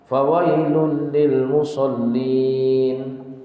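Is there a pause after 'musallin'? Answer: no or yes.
yes. It is read with a pause after 'musallin'. "kalau kita mau baca sepenggal juga nggak apa-apa"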